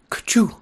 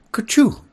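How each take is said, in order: First: Loud high sneeze; a big sudden sneeze. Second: Even louder, higher sneeze. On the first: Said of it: "it said". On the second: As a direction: sneeze it out hard. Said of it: "said I". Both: A narrator's reading.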